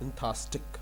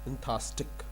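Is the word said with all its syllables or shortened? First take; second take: shortened; shortened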